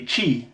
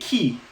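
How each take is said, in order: First: It begins with a soft sh sound. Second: It begins with a hard k sound. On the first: The speaker calls it wrong. "not a chi sound" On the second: The speaker calls it right. "in Italian, the um, C H I has a chi sound"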